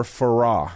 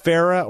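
First: "Farah" said as fuh-RAH; second-syllable stress. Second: "Farah" said as FAIR-uh; first-syllable stress. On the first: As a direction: stress the end of "Farah", like "sera" in Que sera. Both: Shown as a demonstration. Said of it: "Is it Farah or Farah?".

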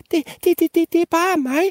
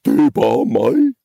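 First: Very high stammering peep; tiny squeaky voice. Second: Raised, loud would-be commanding goat; trying to sound authoritative. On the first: Littlest goat answering the troll, very high stammered peep. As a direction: peep it out as a teeny scared goat. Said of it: "pippede den mindste bukke Bruse med sin lille bitte stemme". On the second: Middle goat answering the troll, loud attempt at authority. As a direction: puff up and announce yourself firmly. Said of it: "forsøgte at lyde myndig". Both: Acted.

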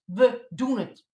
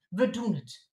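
First: Loud, slow "We doen het" with every word hit; defiant "doen" stressed; emphatic. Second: Said in the usual way. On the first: Acted. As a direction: insist on it, slowly and loud. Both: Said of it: "We doen het gewoon".

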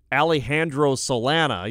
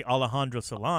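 First: Alejandro Solana said the English way, flat a in Alejandro; anglicized pronunciation. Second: Alejandro Solana with open Spanish a vowels, quick and easy; Spanish pronunciation. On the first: Host showing the bad English way to say it. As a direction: say Alejandro with English vowels, Al-ee-HAN-dro. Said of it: "you know, like that, that sounds bad". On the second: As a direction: say Alejandro simply, Ah-leh-HAN-dro. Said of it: "but you can say Alejandro Solana". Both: Shown as a demonstration.

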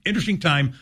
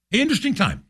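First: Said in the usual way. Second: A much higher, sing-song "interesting". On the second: Real, not acted. Host musing to listeners, high and sing-song. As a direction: savour the word "interesting" high up, then let it fall.

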